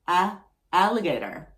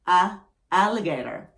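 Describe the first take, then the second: Both takes have the same delivery.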